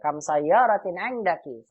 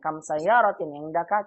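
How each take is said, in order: First: It is said like an exclamation. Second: It is said like a question.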